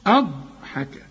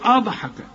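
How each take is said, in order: First: The ض sound is held smoothly without bounce. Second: The ض sound is given an echoing bounce. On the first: The speaker calls it right. "شوف" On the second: The speaker calls it wrong. "ما تقولش أضحك، أض"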